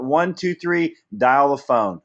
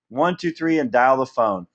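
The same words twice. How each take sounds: First: Counting it out. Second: Said in the usual way. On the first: Shown as a demonstration. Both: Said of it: "You know what?".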